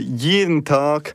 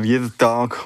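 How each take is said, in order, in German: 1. Er wird mit standarddeutscher Aussprache gesprochen. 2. Er wird mit schweizerdeutscher Aussprache gesprochen.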